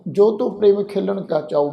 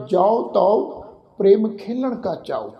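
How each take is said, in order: First: ਜੋ ਤੋ said "jo to" with a closed "o"; mispronunciation demo. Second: ਜਾਓ ਤਉ said "jau tau" with open "au"; kanaura vowel. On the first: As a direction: read the verse with pure "o" in ਜੋ ਤੋ. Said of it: "ਇਸ ਢੰਗ ਨਾਲ ਨਹੀਂ ਕਰਨਾ". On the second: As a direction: read the verse with "au" in ਜਾਓ ਤਉ. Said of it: "ਕਨੌੜੇ ਦੀ ਮਾਤਰਾ ਲਗਾ ਕੇ ਉਚਾਰਨ ਕਰਾਂਗੇ". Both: Shown as a demonstration.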